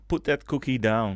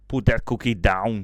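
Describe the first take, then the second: First: It is said in the speaker's normal voice. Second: It is said in an imitated celebrity voice.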